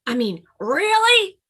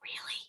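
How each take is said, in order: First: Really? high and loud, bursting out; louder really. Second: Really? barely breathed, very soft; whispered Really?. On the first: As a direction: blurt really? out eagerly. Grizzly Bun asks again louder. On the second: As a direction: hush Really? to nearly nothing. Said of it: "whispered Grizzly Bun". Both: Acted.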